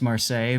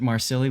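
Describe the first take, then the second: First: The name ends with a 'say' sound. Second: The name ends with a 'silly' sound. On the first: This is the official pronunciation. "we know it's pronounced Marseille" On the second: The ship is jokingly called silly. "we pronounce it Marsilli"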